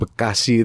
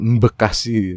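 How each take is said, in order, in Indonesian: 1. Kata ini langsung diawali bunyi b biasa. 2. Bunyi m ditambahkan sebelum b.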